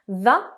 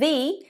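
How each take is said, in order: First: The vowel is short and weak, like 'thuh'. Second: The vowel is long and full, like 'thee'. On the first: It comes before a word starting with a consonant. "The is with consonants" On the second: It comes before a word starting with a vowel. "But the is with vowels"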